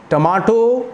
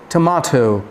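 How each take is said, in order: First: टमाटो with hard retroflex ʈ; टमाटो, retroflex T's; harsh T. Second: टमाटो, breathy tʰ; softened T. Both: Shown as a demonstration. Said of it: "compare करिए".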